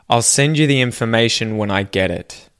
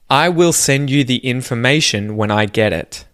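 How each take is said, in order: First: 'Will' is contracted onto the word before it. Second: 'Will' is said in full as its own word. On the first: "say the contracted form" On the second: "the first sentence"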